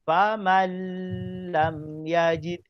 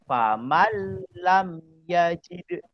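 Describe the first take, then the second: First: The n is held with a long nasal hum. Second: The n merges into the l without nasal hum. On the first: The speaker calls it wrong. "saya baca dengung" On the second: The speaker calls it right. "Yang betul"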